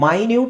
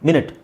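First: It begins with a long 'my' sound. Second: It begins with a short 'min' sound. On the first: Something extremely small. "ಮೈನ್ಯೂಟ್ ಅಂದರೆ ತುಂಬ ಸಣ್ಣದು" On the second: A unit of time. "ಮಿನಿಟ್ ಅಂದರೆ ನಿಮಿಷ"

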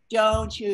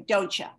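First: The two words are said fully and separately. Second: The two words are run together and reduced. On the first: The speaker calls it wrong. "You don't say don't you" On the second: The speaker calls it right. "you say don't ya"

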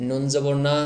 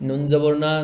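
No difference in how they are said.

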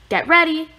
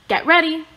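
The two takes are said the same way.

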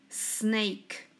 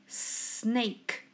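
The two takes are said the same way.

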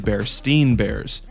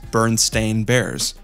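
First: The name's ending sounds like 'stine'. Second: The name's ending sounds like 'stain'. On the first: "originally Bernstein Bears, S-T-E-I-N" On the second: "The way Bernstein Bears is pronounced is"

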